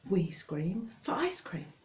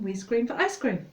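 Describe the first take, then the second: First: It is said somewhat faster than normal. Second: It is said faster again, quite quickly. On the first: "And then you have to say it faster" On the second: "And faster"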